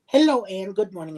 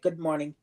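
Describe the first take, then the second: First: Bright, louder hello, lifted up high; cheery greeting. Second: Said in the usual way. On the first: Retold or imitated. Cheerfully greeting the receptionist Ann, a bit louder. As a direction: greet the receptionist with a sunny lift. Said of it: "I said". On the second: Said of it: "And she's like".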